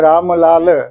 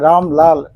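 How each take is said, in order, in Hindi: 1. म और ल के बाद के स्वर पूरी तरह बोले जाते हैं। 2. म और ल के बाद के स्वर छोड़ दिए जाते हैं। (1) "हमारे सिंधी मित्र भी वही बोलते हैं" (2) "हम बोलते हैं"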